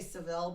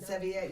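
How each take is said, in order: First: The name is said the English way. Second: The name is said the Spanish way. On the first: The speaker calls it wrong. "that's not how you pronounce it" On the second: The speaker calls it right.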